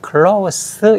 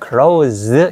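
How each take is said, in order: First: The final sound is a hissing unvoiced s. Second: The final sound is a buzzing voiced z. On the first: It means near or intimate. "close 이렇게 발음을 하면 밀접하다는 뜻이잖아요" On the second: It means to shut. "저 유성을 발음내면 문을 닫다는 뜻이 돼버려요"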